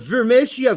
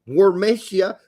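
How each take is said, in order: First: The name begins with a V sound. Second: The name begins with a W sound. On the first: The speaker calls it right. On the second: The speaker calls it wrong.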